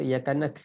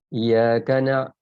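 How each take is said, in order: First: The word ends with a plain k sound. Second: The word has a deep throaty ain sound. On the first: The speaker calls it wrong. "itu lagi salah" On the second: The speaker calls it right. "itu ain itu penting"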